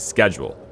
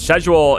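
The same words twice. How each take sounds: First: The word is pronounced the American way. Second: The word is pronounced the British way. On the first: "If you're American, it's probably almost almost universally schedule" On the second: "schedule is something that I think a lot of U K people say"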